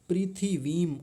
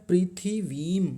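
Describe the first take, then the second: Both takes have the same delivery.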